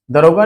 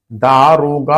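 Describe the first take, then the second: First: दरोगा with short first a; wrong form दरोगा. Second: दारोगा with long, drawn-out first aa; correct form दारोगा. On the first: Teacher showing students the wrong spelling, short a in दरोगा. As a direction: say दरोगा with a clipped first vowel. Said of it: "दरोगा नहीं होता ये". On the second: Teacher giving students the correct word, long aa in दारोगा. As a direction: stretch the first vowel of दारोगा. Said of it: "दारोगा होता है". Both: Shown as a demonstration.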